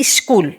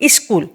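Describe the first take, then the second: First: It is said with a Bengali-influenced accent. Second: The same.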